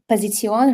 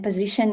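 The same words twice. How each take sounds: First: It is pronounced the German way. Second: It is pronounced the English way. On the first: "auf Deutsch" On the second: "position in English"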